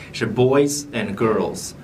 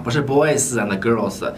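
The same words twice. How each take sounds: First: Put-on "boys and girls" with short ending; clipped correct ending. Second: Put-on "boys and girls" with drawn-out ending; wrong drawn-out ending. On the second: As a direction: drag the end of "girls". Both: Shown as a demonstration. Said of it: "尾音不要拖得太长".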